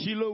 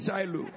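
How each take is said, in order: First: Shiloh with an ee in the first syllable; Shiloh as SHEE-lo. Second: Shiloh with an eye sound first; Shiloh as SHY-lo. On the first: Preacher polls congregation on pronunciation, Shiloh as SHEE-lo. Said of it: "How many of you vote that it is Shiloh". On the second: Preacher offers congregation the other pronunciation, Shiloh as SHY-lo. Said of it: "How many of you say Shiloh". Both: Shown as a demonstration.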